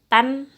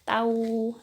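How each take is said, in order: First: The syllable ends with a clear n sound. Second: The n merges into a nasal w sound. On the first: The speaker calls it wrong. "bukan tan" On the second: The speaker calls it right. "tapi tahu tahu gitu"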